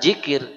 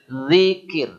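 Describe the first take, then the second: First: The word begins with a j sound. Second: The word begins with a soft th sound. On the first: The speaker calls it wrong. "Zikir bukan jikir" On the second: The speaker calls it right. "Zikir bukan jikir, zikir"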